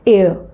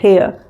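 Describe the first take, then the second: First: The word starts with a vowel, no h sound. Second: The word starts with a clear h sound. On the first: The speaker calls it right. "This एच is somewhat silent and again this is also uttered as एयर" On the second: The speaker calls it wrong. "कई लोग इस एच को भी openly बोलते हैं और बोलते हैं हेयर। It is not हेयर"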